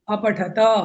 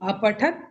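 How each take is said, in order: First: It ends on a full ta with a vowel. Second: It ends on a bare t without a vowel. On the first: You all read. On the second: One person read.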